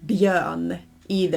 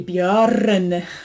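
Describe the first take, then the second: First: The R is left out entirely. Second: The R is pronounced fully and clearly. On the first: "But you don't say björn either. You do pronounce it" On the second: "You don't say björn. Sounds very weird"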